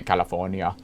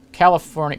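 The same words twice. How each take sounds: First: California in a mock accent, dropped lower and softer; mock pronunciation. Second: Said in the usual way. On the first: Wine-guide host playfully echoing the California entry, mock accent.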